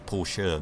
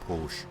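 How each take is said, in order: First: The word ends with a sounded final vowel. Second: The word ends with no final vowel sound. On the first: The speaker calls it right. "it's Porsche, ... therefore you pronounce the E" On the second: The speaker calls it wrong. "not Porsche. That bugs me"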